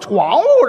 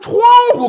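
First: The word is said in a Northeastern accent. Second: The word is said in standard Mandarin. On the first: "东北人有口音。" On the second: "怎么叫人都说窗户"

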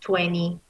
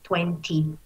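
First: The middle t is silent. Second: The middle t is clearly pronounced. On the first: "La americana, en la cual la T se convierte en muda" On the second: "La británica tal cual se escribe"

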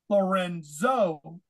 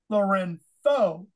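First: The z is pronounced as a z sound. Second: The z is pronounced as a th sound. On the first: "That's the way it looks if you just look at it in English" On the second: "the proper Spanish way of saying the Z is like a TH"

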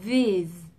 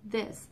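First: The th sound is voiced, with vibration. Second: The th sound is voiceless, without vibration. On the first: The speaker calls it right. "Thật ra nó là these" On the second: The speaker calls it wrong. "mình hay đọc nó không rung"

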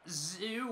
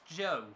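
First: The name begins with a z sound, rhyming with too. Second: The name begins with a j sound, rhyming with go. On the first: The speaker calls it wrong. "not Zoo" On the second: The speaker calls it right. "I've heard the guy in fifth is pronounced Joe"

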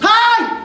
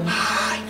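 First: It is said loudly. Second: It is said quietly.

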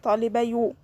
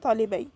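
First: The word ends with a final 'u' vowel. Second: The word ends without a final vowel. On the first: The speaker calls it wrong. "it will be difficult and it will be wrong" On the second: The speaker calls it right. "I'm remove the dhamma and I say talibay"

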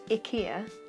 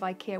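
First: It is said with the original Swedish pronunciation. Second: It is said with the usual English pronunciation. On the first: The speaker calls it right. "that that's pronounced IKEA" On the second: The speaker calls it wrong. "instead of IKEA. We're all saying it wrong"

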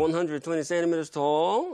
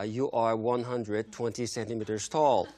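First: It is said in a dissatisfied, complaining tone. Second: It is said in a cold, flat tone.

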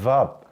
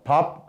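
First: It begins with a v sound. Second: It begins with a plain b sound. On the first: "따라하세요. 밥" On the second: "밥 아니고"

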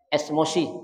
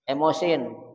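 First: The word is said with an s before m. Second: The word is said without an s before m. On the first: This is how people say it nowadays, as slang. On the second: This is the standard form of the word.

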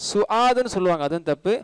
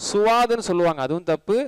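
No difference in how they are said.

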